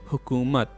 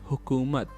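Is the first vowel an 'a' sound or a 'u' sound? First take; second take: u sound; u sound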